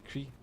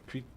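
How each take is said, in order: Both takes have the same delivery.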